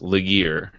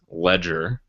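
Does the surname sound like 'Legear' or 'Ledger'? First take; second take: Legear; Ledger. First: The surname sounds like 'Legear'. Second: The surname sounds like 'Ledger'. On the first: This is how the hosts used to say the name. The speaker calls it wrong. "That is not his name" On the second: This is how the person's name is actually said. The speaker calls it right. "The correct pronunciation is John Ledger"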